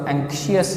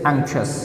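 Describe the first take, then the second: First: The ending is said with two syllables, 'shee-us'. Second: The ending is said as one syllable, 'shus'. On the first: The speaker calls it wrong. "इसको एंक्शियस नहीं पढ़ना, शियस इज not the correct pronunciation" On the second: The speaker calls it right. "तो it इज़ एंक्शस, शस करना आपने"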